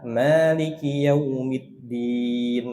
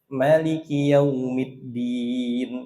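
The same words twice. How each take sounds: First: The first vowel of Maliki is long. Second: The first vowel of Maliki is short. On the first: "banyak dua harokat" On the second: "riwayat yang namanya pendek"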